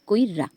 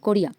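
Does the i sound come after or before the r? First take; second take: before; after. First: The i vowel comes before the r sound. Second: The i vowel comes after the r sound. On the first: "রসই স্বরবর্ণটি ... ব্যঞ্জন বর্ণ রয়ের আগে উচ্চারণ করি" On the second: "কো যোগ ও যোগ রো যোগ রস্বই যোগন্তস্থ যোগ আ"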